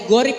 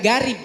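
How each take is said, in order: First: The first syllable sounds like 'go'. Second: The first syllable sounds like 'ga'. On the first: The speaker calls it right. "bacaannya gorib" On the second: The speaker calls it wrong. "bukan garib"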